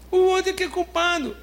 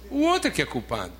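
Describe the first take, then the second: First: Much higher, mocking voice of someone blaming others; mocking blame-shifter. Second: Said in the usual way. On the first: Preacher mocks believers who blame others, high mocking voice. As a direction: play the self-excusing accuser, pointing away.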